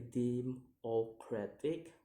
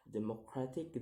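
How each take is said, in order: First: "democratic" slowly split into syllables; slow, separated syllables on "democratic". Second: Said in the usual way. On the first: Shown as a demonstration. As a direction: sound out "democratic" piece by piece. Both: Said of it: "count the word syllable backwards".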